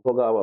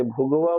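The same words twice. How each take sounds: First: भोगावा said as bho-gaa-va; three-syllable variant. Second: भोगवा said as bhog-va; two-syllable variant. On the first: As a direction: say भोगावा with a long aa after the g. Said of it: "भोगावा बोलते हैं". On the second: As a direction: say भोगवा with no vowel after the g. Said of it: "कई लोग इसे भोगवा बोलते हैं". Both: Shown as a demonstration.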